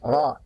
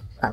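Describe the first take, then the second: First: The r sound is heavy and thick. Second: The r sound is light and thin. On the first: The speaker calls it right. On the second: The speaker calls it wrong.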